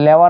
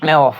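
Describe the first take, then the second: First: The word begins with an L sound. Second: The word begins with an N sound. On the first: The speaker calls it wrong. "উচ্চারণ তার ঠিক নাই" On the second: The speaker calls it right. "আসলে লেওয়া না নেওয়া ফলে"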